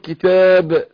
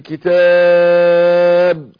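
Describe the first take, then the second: First: The long vowel is held for two counts. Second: The long vowel is held for four counts. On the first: "حركتين" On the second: "اربع حركات"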